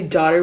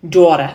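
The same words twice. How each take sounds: First: Said in the usual way. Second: "daughter" loudly in New York accent; New York warm-up word. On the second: Shown as a demonstration. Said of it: "when I say daughter with the New York accent".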